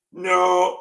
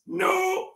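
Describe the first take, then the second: First: A lower, slightly louder Swiss "Non"; retry the Swiss accent after being told it's wrong; Swiss accent, second try. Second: A failed, barely Swiss French "Non"; first clumsy try at a Swiss accent. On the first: Grandpa retries a Swiss accent after criticism. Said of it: "Attendez, l'accent suisse?". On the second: Grandpa tries a Swiss accent for his joke. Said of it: "Attendez, je fais l'accent suisse". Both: Pretend.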